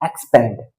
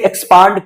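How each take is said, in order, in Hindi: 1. दूसरा स्वर आगे वाला 'a' है, जैसे 'cat' में। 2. दूसरा स्वर खुला 'ah' ध्वनि है। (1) "जो इसका ट्रेडिशनल प्रोनाउंसिएशन है, वो एक्सपैंड ही है। अब जरा सुनो आप" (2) "मॉडर्न मॉडर्न जो प्रोनाउंसिएशन लोग कर रहे हैं वो इसे एक्सपांड करके पढ़ रहे हैं"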